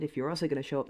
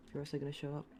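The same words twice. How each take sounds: First: Repeated louder, annoyed. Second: Said in the usual way. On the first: Real, not acted. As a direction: say it again, louder and angrier. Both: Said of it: "I said".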